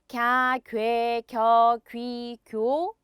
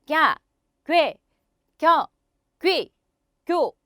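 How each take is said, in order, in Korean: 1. 음절들이 한 호흡으로 이어져요. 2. 음절마다 짧게 끊어서 내뱉어요. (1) "갸부터 개까지 한 호흡으로 가시는 거예요" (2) "스타카토 발성"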